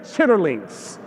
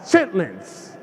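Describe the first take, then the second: First: The word is said in full, three syllables. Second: The word is shortened to two syllables. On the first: The speaker calls it wrong. "I know it's spelled like chitterlings, but never say chitterlings" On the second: The speaker calls it right. "It's chitlins"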